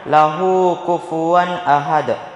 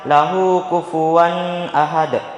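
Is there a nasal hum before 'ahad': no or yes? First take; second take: no; yes. First: The n before ahad is clear, without hum. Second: The n before ahad carries a nasal hum. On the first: The speaker calls it right. "Yang benar" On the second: The speaker calls it wrong. "Jadi jangan didengungkan. Jangan dibaca"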